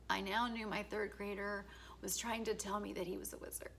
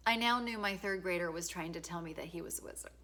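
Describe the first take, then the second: First: Softer, laughing through near tears; choked up. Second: Said in the usual way. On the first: Real, not acted. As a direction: fight back real tears while saying it. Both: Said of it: "I'm gonna cry".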